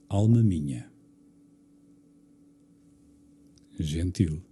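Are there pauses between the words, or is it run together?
pauses. There are pauses after minha and after gentil. The line takes on a different meaning. The speaker calls it right. "é outra história"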